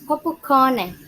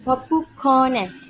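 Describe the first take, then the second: First: It is said in a plain English accent. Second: It is said in a Japanese accent with an extra final syllable. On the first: "popcorn would be pronounced as" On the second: "there is usually an extra syllable at the end"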